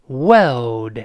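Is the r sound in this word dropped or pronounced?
dropped. The r sound is dropped before the l. "英联邦国家呢还是去掉那个卷舌的动作"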